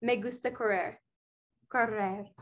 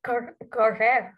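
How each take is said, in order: First: "correr" with a trilled Spanish R; Spanish rolled R. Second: "correr" with a stumbling, untrilled R; failed rolled R. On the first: Friend modelling "correr" for a British learner, trilled R. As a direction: roll the R in "correr" crisply. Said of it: "Okay, so say". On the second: Learner struggling to copy friend's "correr", flat R. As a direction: fumble the R in "correr", no trill. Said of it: "I can't say it". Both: Shown as a demonstration.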